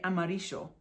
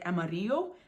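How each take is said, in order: First: The double L has an Argentine-accent sound. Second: The double L is said as a Y sound. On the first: "they'll say amarillo because that's their accent" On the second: "it makes a Y sound"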